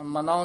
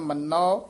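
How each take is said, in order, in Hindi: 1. n ध्वनि छोटी और हल्की है। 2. n ध्वनि लंबी खिंचती है और कसी हुई है। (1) "ਮਨੋ ਨਹੀਂ ਕਹਿਣਾ" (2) "ਕੱਸ ਕੇ ਉਚਾਰਨ ਕਰਨਾ"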